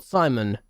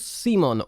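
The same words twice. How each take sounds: First: Simon said as SIGH-mun; alternative pronunciation. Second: Simon said as SEE-mon; alternative pronunciation. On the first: Offering another reading of the striker's name, Simon as SIGH-mun. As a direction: say Simon with an eye vowel first. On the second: Unsure of a new striker's name, Simon as SEE-mon. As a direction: say Simon with a long ee first vowel. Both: Shown as a demonstration. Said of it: "Is it Simon or Simon?".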